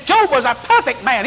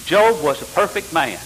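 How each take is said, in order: First: High-pitched indignant insistence, imitated; Willis Walker. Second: Said in the usual way. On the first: Seminary student nearly fighting his teacher, high heated protest. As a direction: argue back like an outraged classmate, pitched way up. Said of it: "I thought they was gonna have a fight". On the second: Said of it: "and it said".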